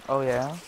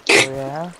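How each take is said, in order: First: Said in the usual way. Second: Louder taunt. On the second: Real, not acted. Teasing back and forth.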